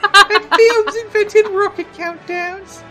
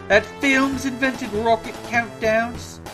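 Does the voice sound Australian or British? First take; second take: British; Australian. First: It is a British little boy voice. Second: It drifts into an Australian accent.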